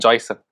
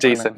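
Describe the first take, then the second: First: The first vowel sounds like 'oy'. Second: The first vowel sounds like 'ay'. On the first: The speaker calls it right. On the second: The speaker calls it wrong.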